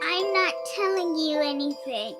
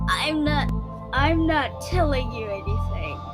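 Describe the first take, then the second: First: It is said in a little kid voice. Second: It is said in a demon voice.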